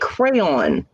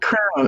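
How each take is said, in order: First: It is said with two syllables, like cray-on. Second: It is said as one syllable rhyming with crown. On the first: The speaker calls it right. "I'm like, crayon" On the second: The speaker calls it wrong. "she's like, crown"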